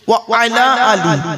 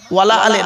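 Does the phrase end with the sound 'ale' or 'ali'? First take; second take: ali; ale. First: It is said as 'wa ala ali', ending in 'ali'. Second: It is said as 'wala ale', ending in 'ale'. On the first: The speaker calls it right. "কি বললাম বাবা?" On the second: The speaker calls it wrong. "খবরদার ওয়ালা আলে বলবেন না।"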